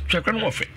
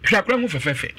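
First: "Hwɛ akora no ho fɛ" said softer; softer repeat. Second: Said in the usual way. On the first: Shown as a demonstration. Repeating the praise of the old man, softly. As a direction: drop the voice on "fɛ".

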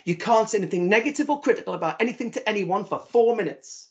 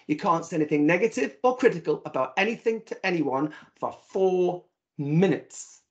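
First: Said in the usual way. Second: "four minutes" stretched out very slowly; slow emphatic repeat. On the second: Shown as a demonstration. Repeating the rule to the audience, drawing out "four minutes". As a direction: lean hard on "four minutes", dragging it out. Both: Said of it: "I'll say that again".

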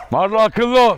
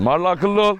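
First: Raised, higher warning call; sterner warning. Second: Said in the usual way. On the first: Real, not acted. Owner warning Marla to behave, raised stern voice. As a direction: call the dog to order.

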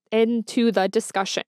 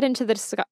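First: Measured, word-by-word restart; careful correction. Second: Rushed, breaking off mid-word; tongue-tied. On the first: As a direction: separate each word deliberately after a stumble. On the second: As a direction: stumble quickly into it and cut off. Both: Real, not acted. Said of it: "I cannot speak".

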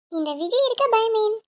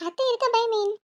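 First: இந்த விஜய் இருக்க stretched out slowly and proudly; slow grand boast. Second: High teasing boast, அத்தை இருக்க said lightly; playful boast. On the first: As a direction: draw out Vijay like a hero line. (மெதுவான பெருமிதம்) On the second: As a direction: toss off அத்தை இருக்க with a grin. (விளையாட்டான பெருமை) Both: Acted.

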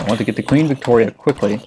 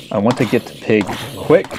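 First: "Queen Victoria" given weight as the corrected name; corrected name "Queen Victoria" said deliberately; stress on Queen Victoria. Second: Said in the usual way. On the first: Real, not acted. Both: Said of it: "Victoria, Queen Victoria".

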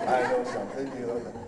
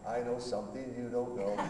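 First: Lightly voiced playful taunt; a hint of a child's nyah-nyah; teasing singsong. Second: Playful singsong taunt with a laugh; teasing laugh. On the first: God teasing the pastor, light singsong taunt. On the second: Retold or imitated. God laughing down at the pastor, teasing singsong. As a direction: tease like a child with a secret. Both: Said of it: "God's up there laughing".

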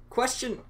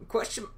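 Both takes have the same delivery.

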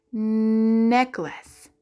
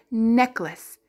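First: "Necklace" with a long nnn at the start; stretched first sound. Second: Said in the usual way. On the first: Shown as a demonstration. Teacher showing what N says, "Necklace" begun on a long nnn. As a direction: hold the N of "Necklace", then finish.

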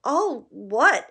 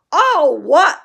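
First: Said in the usual way. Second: Much higher and louder, a roar; thundered. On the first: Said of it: "asked Harry". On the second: A narrator's reading. Hagrid thundering Harry's question back at him. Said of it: "Hagrid thundered".

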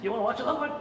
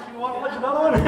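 First: Asked through a giggle, voice lifting; tempting his wife to one more episode, giggling; laughing temptation. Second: Laughing temptation, pitched up; giggling again, higher. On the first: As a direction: coax with a guilty laugh. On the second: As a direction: ask it through rising laughter. Late night, tempting another episode. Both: Retold or imitated.

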